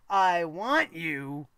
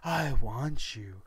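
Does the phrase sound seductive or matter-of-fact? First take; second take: matter-of-fact; seductive. First: It is said plainly, as if more is coming. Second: It is said in a seductive, suggestive way. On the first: The sentence is unfinished and more is coming. "she was just like" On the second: The speaker desires the listener. "She didn't go"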